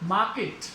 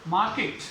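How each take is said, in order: No difference in how they are said.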